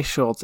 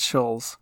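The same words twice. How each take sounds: First: Schultz with a T before the final sound; habitual mispronunciation. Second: Schulz with no T, ending in a Z; corrected pronunciation. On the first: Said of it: "I always say Schultz". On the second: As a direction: say Schulz, L running straight into Z. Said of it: "It's Schulz". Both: Shown as a demonstration.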